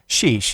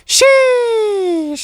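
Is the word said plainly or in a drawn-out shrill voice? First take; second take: plainly; shrill. First: It is said plainly, short and flat. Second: It is said shrill with a drawn-out E.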